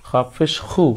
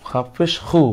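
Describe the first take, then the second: Both takes have the same delivery.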